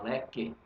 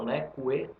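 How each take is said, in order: First: No U sound is heard after the K. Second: A U sound is heard after the K. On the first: The speaker calls it right. "fala leque" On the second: The speaker calls it wrong. "você não fala leque"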